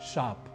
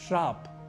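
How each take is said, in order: First: The word begins with a plain 'sh' sound. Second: The word begins with an 'shr' sound. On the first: The speaker calls it right. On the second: The speaker calls it wrong.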